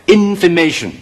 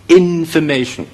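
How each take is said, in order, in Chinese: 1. 第一个音节有次重音。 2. 第一个音节有次重音。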